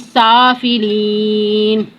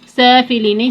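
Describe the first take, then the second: First: The first vowel is said with open mouth. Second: The first vowel is said with spread lips. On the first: The speaker calls it right. "मुंह खोल के पढ़ेंगे" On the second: The speaker calls it wrong. "इसको होठों को फैला के मत पड़ेगा"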